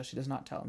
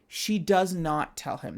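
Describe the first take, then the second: First: "not" dropped soft, rising slightly; quiet repeat. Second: "does" stressed hard, slow and a bit louder; slow it down and lean on "does"; emphatic. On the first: Repeating the key detail to listeners, quietly. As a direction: repeat it softly, almost to herself. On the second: Stressing to her listeners that she keeps it secret, emphatic. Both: Shown as a demonstration. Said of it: "That is an important detail".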